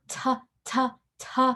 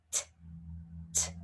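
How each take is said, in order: First: "t" with an added uh; wrong tuh. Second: "t" as a short puff, no voice; just the tongue tap and air for "t"; unvoiced t. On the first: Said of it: "it's not". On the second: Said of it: "T is unvoiced". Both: Shown as a demonstration.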